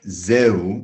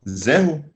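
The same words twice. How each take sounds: First: Zeu with no h between the vowels; dropped h. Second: Said in the usual way. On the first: Shown as a demonstration. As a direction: run the e straight into the u in zeu. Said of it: "When you hear Israelis say it". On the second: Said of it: "as if the letter hey isn't there".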